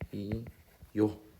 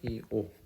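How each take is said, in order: First: A y-glide is added before the final vowel. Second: The two vowels meet with no glide between them.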